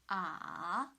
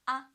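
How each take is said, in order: First: The pitch dips low, then rises. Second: The pitch stays high and flat. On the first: "two to one to four" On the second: "First tone is on the five, so it's ah"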